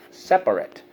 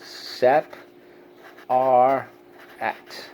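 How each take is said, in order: First: Said in the usual way. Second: SEP, ARE, AT with a pause after each; syllable by syllable. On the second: Shown as a demonstration. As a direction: say "Sep-, are-, at" as three separate, evenly stressed beats. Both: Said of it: "So let's go".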